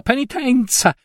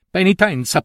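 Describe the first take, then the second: First: Penitenza! flung much higher, scandalized; outraged repeat, much higher; outraged cry. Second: Penitenza said higher, with a bitter fall; mock repetition of the order; scornful echo. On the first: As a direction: throw penitenza! up in disbelief. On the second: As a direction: spit out the word Penitenza. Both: A narrator's reading. Aunt mocks the priest's order.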